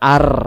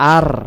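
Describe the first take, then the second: The two takes are said the same way.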